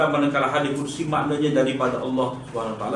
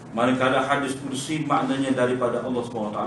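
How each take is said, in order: No difference in how they are said.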